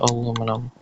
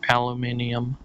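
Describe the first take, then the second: First: It is said the usual American way. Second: It is said the original, older way. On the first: "I live in America. I'm used to saying aluminum" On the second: "the original pronunciation"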